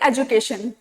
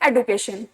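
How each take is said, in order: First: The middle consonant sounds like 'j'. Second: The middle consonant sounds like 'd'. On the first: This is the older way of saying it. "पहले हम लोग बोलते थे" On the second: This is the newer way of saying it. "अब word आ गया है"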